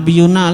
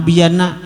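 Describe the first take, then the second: First: A 'u' vowel comes before the final 'na'. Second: An 'a' vowel comes before the final 'na'. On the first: "jangan nabiyuna lah" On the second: "jangan nabiyana"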